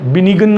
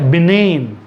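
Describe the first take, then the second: First: The g is pronounced in the middle. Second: The g is silent in the word. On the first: The speaker calls it wrong. "ये बिनिगन नहीं है" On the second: The speaker calls it right. "ये है बिनेन"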